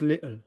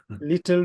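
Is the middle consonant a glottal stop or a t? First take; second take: glottal stop; t. First: The middle consonant is a glottal stop. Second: The middle consonant is a clear t sound.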